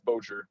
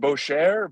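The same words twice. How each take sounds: First: The name is pronounced in a German way. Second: The name is pronounced in a French way. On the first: The speaker calls it right. "no, it's Bocher. Just like Bo and a churro" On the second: The speaker calls it wrong. "Everybody thinks it's French"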